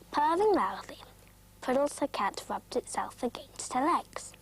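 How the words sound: There is a pause after loudly.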